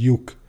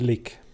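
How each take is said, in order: First: The word begins with a y sound. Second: The word begins with an l sound. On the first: This is how people in Budapest say it. "hogyan mondják Pestiek" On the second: This is the older regional way of saying it. "a Bódi néni úgy mondta"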